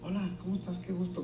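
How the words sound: The greeting sounds ashamed and awkward.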